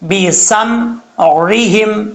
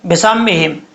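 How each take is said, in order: First: The middle consonant is a throaty ain sound. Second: The middle consonant is a plain glottal stop. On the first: The speaker calls it right. "आइन जेर री" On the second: The speaker calls it wrong. "यहाँ पर आइन को हमजा पढ़ जाते हैं"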